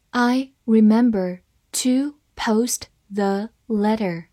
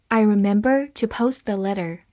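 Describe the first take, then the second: First: "I remember to post the letter", slow, word by word; slow read-along. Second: Said in the usual way. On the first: Shown as a demonstration. Teacher modelling the second sentence for learners, slow word-by-word reading. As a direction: pause between words so learners can follow. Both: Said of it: "好，慢慢来读".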